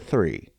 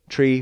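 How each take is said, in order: First: The word begins with a TH sound. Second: The word begins with a plain T sound.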